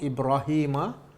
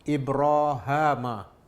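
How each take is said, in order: First: The vowel after the h is i. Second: The vowel after the h is a. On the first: "ha baris bawah dan selepasnya ya" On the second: "ha baris atas dan selepasnya alif"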